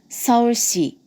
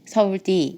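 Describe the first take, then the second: First: The s comes out with a leaky hissing air. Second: The s comes out like a d sound. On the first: "새는 소리입니다" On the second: "혀 짧은 소리, 디귿처럼 나는 경우"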